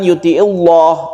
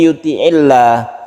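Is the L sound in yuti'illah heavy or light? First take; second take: heavy; light. First: The L sound is heavy and thick. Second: The L sound is light and thin. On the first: The speaker calls it wrong. "bukan yuti'illah" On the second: The speaker calls it right. "dibaca tarqiq atau tipis"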